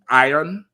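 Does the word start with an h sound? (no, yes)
no. The word starts with a vowel, no h. "people will say the ironing board"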